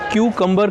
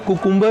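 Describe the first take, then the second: First: The word begins with a kyoo sound. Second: The word begins with a plain koo sound. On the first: The speaker calls it right. "इसकी सही pronunciation होती है क्यूकम्बर" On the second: The speaker calls it wrong. "कुकुम्बर नहीं"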